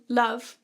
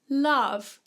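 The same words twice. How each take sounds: First: The vowel is said with a closed sound. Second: The vowel is said with an open sound. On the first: The speaker calls it wrong. "we wouldn't sing love" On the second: The speaker calls it right. "to give us a more open sound"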